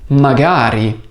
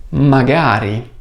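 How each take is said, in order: Both takes have the same delivery.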